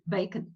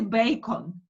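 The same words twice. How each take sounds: First: The second vowel is a weak schwa. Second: The second vowel is a full, open vowel. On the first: The speaker calls it right. "No, bacon" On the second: The speaker calls it wrong. "You don't say bacon"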